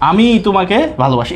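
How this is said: The first word is said with strong emphasis. I myself, not someone else, love you. "এই যে জোর দিল না কথাটার মধ্যে"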